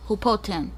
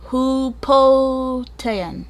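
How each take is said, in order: First: Said in the usual way. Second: "Hupotean" stretched very slowly and higher; "Hupotean" drawn out slowly, unsure of the name; sounding out. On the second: Real, not acted. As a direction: sound out "Hupotean" syllable by syllable, feeling for it.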